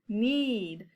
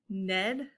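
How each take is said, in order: First: The vowel is a long e, as in seed. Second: The vowel is a short e, as in bed. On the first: The speaker calls it right. "Let's try the long E sound" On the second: The speaker calls it wrong. "that doesn't sound right either"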